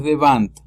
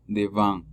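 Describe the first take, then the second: First: "devant" with a hard final T; wrong sounded T. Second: "devant" ending in a nasal, no T; silent final T. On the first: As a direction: mispronounce "devant", sounding the last T. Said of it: "No es devant". (devant pronunciando la T final) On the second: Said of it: "la T es muda". (devant con la T muda) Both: Shown as a demonstration.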